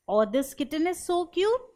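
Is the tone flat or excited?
flat. It is said flatly, without feeling.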